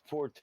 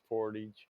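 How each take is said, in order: First: It is said with a French-style pronunciation. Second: It is said with an American pronunciation. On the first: The speaker is trying to sound smart. The speaker calls it wrong. "trying to say it like French" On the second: This is how most Americans say it. The speaker calls it right. "in American it's portage"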